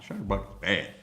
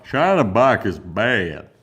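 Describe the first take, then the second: First: Said in the usual way. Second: Much louder and slower, drawn out; emphatic slow verdict; loud slow declaration. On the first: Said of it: "repeats it louder". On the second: Shown as a demonstration. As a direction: declare it slowly and loudly. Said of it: "repeats it with force".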